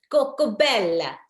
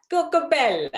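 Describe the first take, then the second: First: Said in the usual way. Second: Higher, louder, lilting Coco Bella like Italian men calling out; sing-song Italian men calling. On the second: Retold or imitated. Retelling what Italian men called her, lilting and higher. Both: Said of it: "they were calling me Coco Bella".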